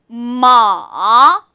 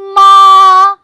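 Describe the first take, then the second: First: The pitch dips very low, then rises again. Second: The pitch stays high and level. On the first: It means horse. "삼성" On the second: It means mother. "일성으로 발음하면"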